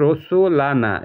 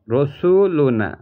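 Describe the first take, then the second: First: রসুলানা read slowly, the jabar giving -lana; রসুলানা slow, vowel a before na, the object form; Arabic reading rasulana. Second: রসুলুনা drawn out slowly, ending in -luna; রসুলুনা slow, vowel u before na; Arabic reading rasuluna. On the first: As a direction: drag out রসুলানা, open a before na. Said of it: "জবর হয়েছে". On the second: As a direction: stretch রসুলুনা slowly with u in the middle. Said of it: "যদি রসুলুনা হইতো". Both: Shown as a demonstration.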